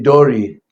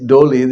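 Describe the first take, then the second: First: The middle consonant is an R sound. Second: The middle consonant is an L sound. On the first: "they say Dori" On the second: "they don't say Doli"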